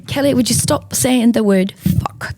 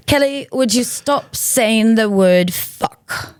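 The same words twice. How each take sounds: First: A hint of a weary mother; lightly voiced exasperated rebuke; Sharon's scolding. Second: Slow, deliberate scolding in a put-on voice; drawn-out weary rebuke of a toddler; slow, exasperated mother telling off her daughter; Sharon's scolding. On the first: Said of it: "Just the way she said it was so hilarious". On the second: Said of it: "finally Sharon looks at her and she goes".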